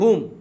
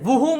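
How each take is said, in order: First: The word begins with an h sound. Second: The word begins with a w sound. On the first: The speaker calls it right. "નહીં હુમ" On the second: The speaker calls it wrong. "વુહુમ નહીં"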